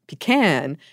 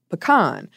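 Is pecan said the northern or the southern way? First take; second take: northern; southern. First: The word is said the northern way. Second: The word is said the southern way. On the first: "the rare person who pronounces it the northern way" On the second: "most people who order it say it the southern way"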